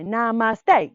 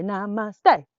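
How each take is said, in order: First: Loud called namaste; sergeant call. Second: Loud answered namaste; repeat call. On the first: Teacher as sergeant calling to little yogis. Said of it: "I am the sergeant". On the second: Teacher showing kids the reply to the sergeant. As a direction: call it back like a recruit. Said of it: "you say". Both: Shown as a demonstration.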